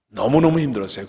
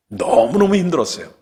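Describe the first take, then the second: First: Said in the usual way. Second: 너무너무 burst out high and loud; 너무너무 cried out with anguish; emphatic cry. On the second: Real, not acted. Preacher recalls painful time. (너무너무 크게 터뜨리며)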